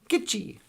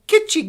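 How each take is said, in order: First: The word begins with a hard G sound. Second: The word begins with a K sound. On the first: The speaker calls it right. "Gitchi with with G means great" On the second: The speaker calls it wrong. "calls itself Kitschy Gummy, like kitsch"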